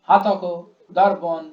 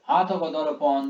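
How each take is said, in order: First: It is read in harsh, thumping beats. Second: It is read smoothly and melodiously. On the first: The speaker calls it wrong. "এ তো এ ঠোকা হচ্ছে আর কি। যেন মুগুর দিয়ে মারছে" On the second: The speaker calls it right. "ঠিক ভালো লাগছে শুনতে।"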